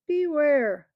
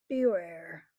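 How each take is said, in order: First: Louder, higher, drawn-out warning; ominous warning. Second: Said in the usual way. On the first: A narrator's reading. Tarkan warning the crowd, the loud second beware. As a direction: lean in hard on the second beware. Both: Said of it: "the Tarkan warns the crowd".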